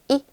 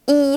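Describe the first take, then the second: First: The vowel is short and relaxed. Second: The vowel is long with spread lips. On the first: The speaker calls it right. "아래턱에 힘을 빼시고 가볍게 이 이렇게" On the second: The speaker calls it wrong. "입술 양옆을 딱 당겨서 이 하게 되면 장음, 긴 소리의 이 발음"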